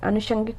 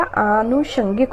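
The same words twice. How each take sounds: First: अनुषंगिक opening on short a; wrong pronunciation. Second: आनुषंगिक slowly, very long 'aa'; correct pronunciation. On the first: Teacher repeating the mistake, short a in अनुषंगिक. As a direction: pass quickly over the a of अनुषंगिक. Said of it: "कुछ नहीं होता है बेटा". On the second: Teacher repeating the correction, stretched aa in आनुषंगिक. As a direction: draw out the opening vowel of आनुषंगिक. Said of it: "आनुषंगिक होता है". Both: Shown as a demonstration.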